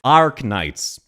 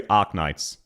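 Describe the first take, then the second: First: "Arknights" with a hard "arc" sound; pronounced R. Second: "Arknights" flat, with no R; Australian pronunciation. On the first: Retold or imitated. Imitating her as a perfect example, R pronounced. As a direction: stress the R in "Arknights". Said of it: "she says arc". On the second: Shown as a demonstration. Showing what any Australian would say, R dropped. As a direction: say "Arknights" evenly as "Ahk-nights". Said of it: "Any Australian would say".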